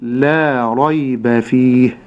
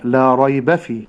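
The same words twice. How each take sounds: First: لا ريب فيه slow and measured; right slow reading. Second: لا ريب فيه run together; wrong joined reading. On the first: Sheikh shows students the right way, slow and measured. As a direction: read لا ريب فيه slowly. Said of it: "النطق الصحيح كيف". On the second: Sheikh shows students the wrong way, words run together. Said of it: "النطق الخطأ هكذا". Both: Shown as a demonstration.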